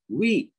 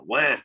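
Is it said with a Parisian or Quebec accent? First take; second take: Parisian; Quebec. First: It is said with a Parisian French accent. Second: It is said with a Quebec French accent.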